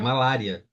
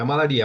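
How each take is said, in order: First: The stress falls on the syllable la. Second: The stress falls on the syllable ri. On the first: The speaker calls it right. "é malária" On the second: The speaker calls it wrong. "não é malaria"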